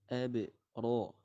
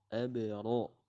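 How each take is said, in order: Both takes have the same delivery.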